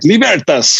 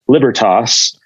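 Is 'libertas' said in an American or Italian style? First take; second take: Italian; American. First: It is said with Italian-style stress and sounds. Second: It is said with Americanized English stress and sounds. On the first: "you think of the Italians, like libertas" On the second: "kind of this Germ- Germanic, English, Americanized"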